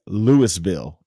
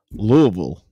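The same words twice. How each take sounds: First: Louisville said "LOO-is-vill" as spelled. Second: Louisville said "LOO-uh-vul"; local Louisville. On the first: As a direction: read Louisville the way it is spelled, s and all. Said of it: "spelled like Louisville". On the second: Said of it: "It's pronounced Louisville". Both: Shown as a demonstration.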